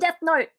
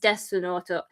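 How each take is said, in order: First: It is said with plain English pronunciation. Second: It is said with Japanese pronunciation, as desunoto. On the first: It is the ordinary English name. "Just call it fucking Death Note" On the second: It is the form used for Japanese speakers. "writing it for Japanese people is Desunoto"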